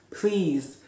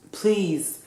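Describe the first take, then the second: No difference in how they are said.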